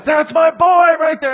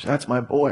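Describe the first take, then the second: First: Very high and loud, screaming it out; proud dad scream. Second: Soft and fond; tender. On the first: Retold or imitated. Father screaming from the bleachers at his son. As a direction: shriek it like a dad gone wild. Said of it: "and screaming". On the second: Acted. God thinking of his child, softly tender. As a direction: say it gently, full of love. God's tender thought, echoing dad's cheer.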